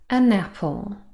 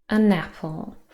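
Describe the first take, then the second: First: The n joins onto the next vowel. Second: The same.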